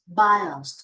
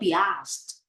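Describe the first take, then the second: First: It sounds like 'by-ust', with a short ending. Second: It sounds like 'bee-asked', split into two words. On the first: The speaker calls it right. "it sounds like biased" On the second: The speaker calls it wrong. "not be not be asked"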